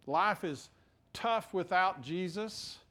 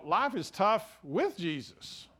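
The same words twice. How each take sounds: First: "tough" leaned on, slow; stress on without. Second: "with" weighted, slow and falling; stress on with. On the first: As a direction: land on "tough" to make the point. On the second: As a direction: press the word "with" to set it against without. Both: Shown as a demonstration. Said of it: "life is certainly tough without Jesus".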